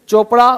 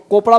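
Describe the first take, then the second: First: The word begins with a 'ch' sound. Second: The word begins with a 'k' sound. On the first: The speaker calls it right. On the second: The speaker calls it wrong.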